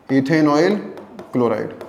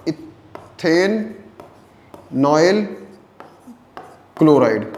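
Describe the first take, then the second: First: Said in the usual way. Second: इथेनॉयल broken into drawn-out pieces, then chloride after a pause; इथेनॉयल split by long pauses, chloride set apart and falling; syllable by syllable. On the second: Shown as a demonstration. Teacher spells out the compound name.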